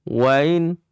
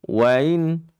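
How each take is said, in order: Both takes have the same delivery.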